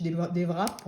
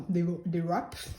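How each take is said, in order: First: Wraps said as "vrap", with French R; French-style pronunciation. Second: Wraps with a clumsy English W accent; soft, self-mocking English accent on "wraps"; attempted English accent. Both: Shown as a demonstration. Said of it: "c'est magnifique avec mon accent".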